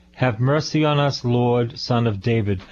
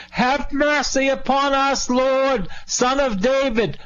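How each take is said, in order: First: Said in the usual way. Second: High-pitched hollering cry for mercy; hollered plea. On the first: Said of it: "That's not how they did it". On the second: Acted. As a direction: holler it out high, like blind men desperate to be noticed. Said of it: "how they did it was they hollered".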